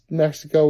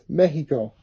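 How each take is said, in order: First: It is said with an English pronunciation. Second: It is said with a Spanish pronunciation. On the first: "would be technically easier to pronounce" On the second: "I am pronouncing it correctly. It's Mexico"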